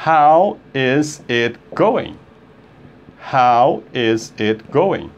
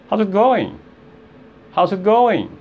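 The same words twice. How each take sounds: First: Slow, word by word; slow demo. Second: Quick, contracted, higher pitch; fast demo. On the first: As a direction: spell it out slowly, each word separate. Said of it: "Se você falar devagar". (bem devagar, palavra por palavra) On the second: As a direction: run the words together briskly. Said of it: "quando você fala rápido, aí sai". (rápido, emendando as palavras) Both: Shown as a demonstration.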